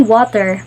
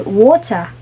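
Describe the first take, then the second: First: Said in the usual way. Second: Water with a dropped r, British style. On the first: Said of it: "we say water". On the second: Shown as a demonstration. Lecturer imitating British people saying water. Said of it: "some British people, they say water".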